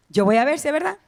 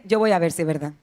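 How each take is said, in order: First: "verdad" con entonación ascendente; repetición interrogativa. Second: Escéptico fingido, en tono mucho más bajo; duda imitada. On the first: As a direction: repite la frase subiendo al final en "verdad". Repite la frase dudosa, interrogando. (subida de pregunta en "verdad") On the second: Imita al creyente que duda. (incredulidad imitada, en voz grave) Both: Retold or imitated.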